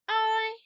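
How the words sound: It is said in a high-pitched voice. "Let's say it with a high voice"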